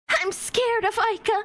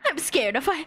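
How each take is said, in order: First: It is read in an acted character voice. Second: It is read in a plain reading voice.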